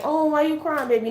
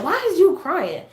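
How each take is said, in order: First: Mock tender concern. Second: High, demanding mock scolding question; unsympathetic mom. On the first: Shown as a demonstration. How mama didn't ask her crying daughter, tender cooing. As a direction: coo it like a sympathetic mom. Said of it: "She ain't say it like". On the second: Mama to crying daughter, unsympathetic imitated demand. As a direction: question a crying child with no sympathy. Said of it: "No, she said".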